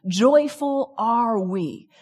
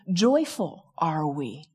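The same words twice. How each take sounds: First: "Joyful are we" drawn out very slowly; slow declaration. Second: "Joyful are we" said slow, low and soft; slow declaration. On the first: Author muses on her own declaration, very slowly. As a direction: savour "Joyful are we" word by word. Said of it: "start making the declaration". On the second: Author proposes a better sign, slowly, low and soft. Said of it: "make the declaration". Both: Retold or imitated.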